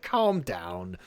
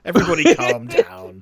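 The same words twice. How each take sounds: First: Said in the usual way. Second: Louder, higher acted plea to settle; raised-voice mock order; mock yell. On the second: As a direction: call it out over the chaos, half in jest. Acted call for calm, louder.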